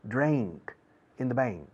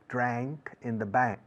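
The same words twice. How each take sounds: First: The phrase is said in a Texan accent. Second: The phrase is said in a standard accent. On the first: "en Texas decimos bank" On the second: "la pronunciación internacional inglesa correcta es"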